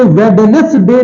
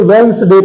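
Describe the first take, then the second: First: "वेडनेसडे" in three parts, first D sounded; wrong pronunciation. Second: "वेंसडे" in two syllables, first D silent; correct pronunciation. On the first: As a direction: spell out every part of "वेडनेसडे". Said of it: "इसे वेडनेसडे नहीं पढ़ते हैं". ("वेडनेसडे" में डी बोलकर) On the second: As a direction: say "वेंसडे", N running into S. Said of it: "इसे वेंसडे पढ़ते हैं". ("वेंसडे" में डी साइलेंट रखकर) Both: Shown as a demonstration.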